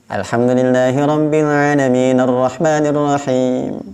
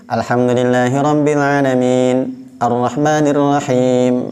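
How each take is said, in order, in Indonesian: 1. Frasa-frasa menyambung, vokal akhir tetap dibaca. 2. Berhenti sebentar di antara frasa tanpa mengambil nafas. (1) "diwasalkan saja. Harokat daripada ujung ayatnya dibaca" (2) "tidak ambil dulu nafas. Itu namanya saktah"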